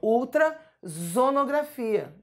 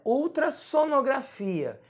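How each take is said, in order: First: The middle consonant is a voiced Z sound. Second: The middle consonant is a voiceless S sound. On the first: The speaker calls it wrong. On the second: The speaker calls it right.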